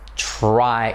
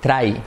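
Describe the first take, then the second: First: The r is a soft English-style r. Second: The r is a Spanish-style tapped r. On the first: The speaker calls it right. "Recuerda que la R es try" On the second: The speaker calls it wrong. "el defecto típico que solemos hacer? Decir try"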